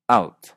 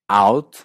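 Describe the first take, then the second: First: The vowel is a closed, raised Canadian sound. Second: The vowel is an open 'ao' sound.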